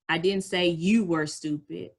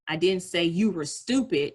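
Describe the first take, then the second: First: The stress is on the word you. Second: The stress is on the word stupid.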